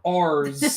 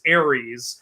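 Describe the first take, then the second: First: The name is squeezed into the short form 'Ars'. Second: The name is said in its usual full form. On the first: "she pronounced Ares as Ars" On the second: "Ares is Ares"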